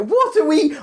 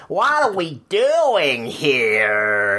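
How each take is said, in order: First: Said in the usual way. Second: Slow, drawn-out mock American tourist; horrified American tourist, hammed up slowly; American accent. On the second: Tourist in the UK, hammed up slow American accent. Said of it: "say it in an American accent".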